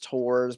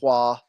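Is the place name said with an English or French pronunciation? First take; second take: English; French. First: The name is said with an English pronunciation. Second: The name is said with a French pronunciation. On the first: "You can pronounce it as Tours, but I try to s- sometimes use the French" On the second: "I think that's how you pronounce it"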